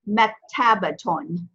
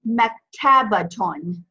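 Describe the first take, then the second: First: The 'ta' syllable is clearly pronounced before the ending. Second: The same.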